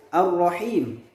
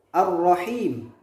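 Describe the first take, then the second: No difference in how they are said.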